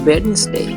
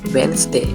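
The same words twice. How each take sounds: First: The D sound in the middle is pronounced. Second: The D sound in the middle is silent. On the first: The speaker calls it wrong. "This word not pronounced Wednesday" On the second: The speaker calls it right. "The correct way is Wednesday. The D is silent"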